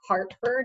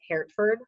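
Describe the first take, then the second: First: The first syllable sounds like 'heart'. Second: The first syllable sounds like 'hurt'. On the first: The speaker calls it right. "it's Hart like Hartford" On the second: The speaker calls it wrong. "not Hertford"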